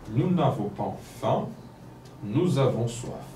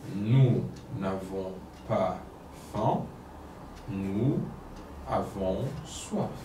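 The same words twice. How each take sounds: First: It is read at a normal speaking pace. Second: It is read one separate word at a time. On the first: "La première fois, normalement" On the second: "je vais lire mot par mot"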